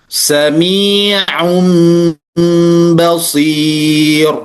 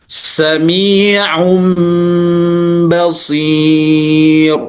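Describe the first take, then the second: Both takes have the same delivery.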